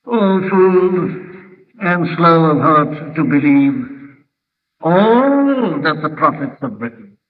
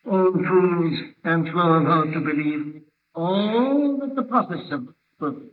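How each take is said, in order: First: Slow, measured scripture reading with "all" drawn out long; pause, then stretch "all" right out; deliberate quotation, long swelling "all"; stress on ALL. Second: Softer recitation with "all" held very long; hushed scripture quote, lingering on "all"; stress on ALL. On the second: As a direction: drop the volume but stretch "all" right out. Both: Shown as a demonstration. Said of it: "the emphasis there is on the word all".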